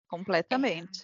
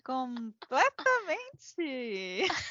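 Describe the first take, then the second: First: It is said flatly, without enthusiasm. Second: It is said with lively enthusiasm.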